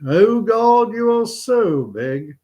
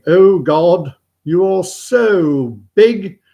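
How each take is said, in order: First: High, drawn-out congregational response; schoolboys repeating prayer. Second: Loud, slow, raised chapel voice; praying chaplain. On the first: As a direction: echo the chaplain in a raised voice. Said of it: "And all the kids repeat". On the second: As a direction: intone the prayer with drawn-out pomp. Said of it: "the vicar or priest or chaplain". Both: Acted.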